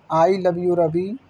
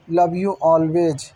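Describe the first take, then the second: First: Slow, tender declaration of love; tender letter. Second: Very slow, drawn-out closing of love; lingering tender farewell. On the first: Wife's letter to Ravi, slow and tender. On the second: Wife signs off her letter to Ravi, very slow and tender. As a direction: let each word hang as a goodbye. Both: Acted.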